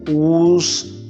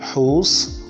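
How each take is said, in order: First: The word begins with a w sound. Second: The word begins with an h sound. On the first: The speaker calls it wrong. "Nigerians pronounce these these words like this, and that is not a correct pronunciation" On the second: The speaker calls it right. "It is who, whose, whole, and whom"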